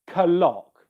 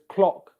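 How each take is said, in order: First: The K pops audibly before the L. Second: The K flows into L without a pop. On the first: "you do not hear clock" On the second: "the size of the tongue coming down as I go straight into the L"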